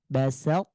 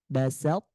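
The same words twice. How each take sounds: The two takes are said the same way.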